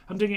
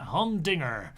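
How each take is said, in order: First: Said in the usual way. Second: Humdinger in a mock American accent; terrible American accent. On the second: Shown as a demonstration. Streamer trying out how American humdinger sounds, mock American accent. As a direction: say humdinger with a hammed-up American R at the end. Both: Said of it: "you know, terrible American accent".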